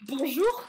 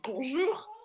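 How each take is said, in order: First: Loud pointed bonjour with a rise; pointed, insistent hello; insistent greeting. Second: Bonjour repeated with a pointed rise; insistent hello again; insistent greeting. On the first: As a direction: stress the greeting to shame her. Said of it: "je fais". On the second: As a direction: keep pressing the greeting. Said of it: "Et je redis". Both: Retold or imitated.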